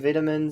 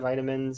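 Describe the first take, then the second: First: The word has a British pronunciation. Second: The word has an American pronunciation. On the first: "sometimes I'll say vitamins" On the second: "instead of vitamins"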